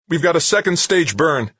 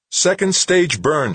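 First: High, loud yelp; yelped alert. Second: High, loud, slow repeat of "Second stage burn"; slow emphatic repeat. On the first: Comtech alerting Wixon to the second stage burn, yelping. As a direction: blurt the alarm out high and loud. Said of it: "the Comtech yelped". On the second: Comtech repeating the news to a stunned Wixon, slow and emphatic. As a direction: spell out "Second stage burn" slowly so it sinks in. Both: Acted.

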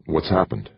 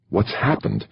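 First: Said in the usual way. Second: "What's happened?" pushed out higher with hard stress on What's; sharp impatient "What's happened?" on a falling tune; angry hiss. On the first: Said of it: "Jamie felt his insides knotting". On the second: A narrator's reading. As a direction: demand it through tight breath, annoyed. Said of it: "Jamie hissed angrily".

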